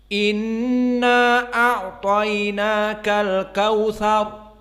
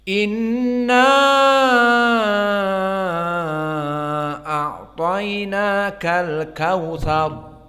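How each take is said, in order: First: The stretched vowel is held only briefly. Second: The stretched vowel is held very long. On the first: This is the shortened reading. "dibaca dengan taksir al-qasr" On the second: This is the fully lengthened reading.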